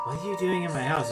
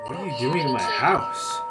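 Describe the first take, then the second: First: It is said flatly, with little effort. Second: It is said with lively, dramatic effort.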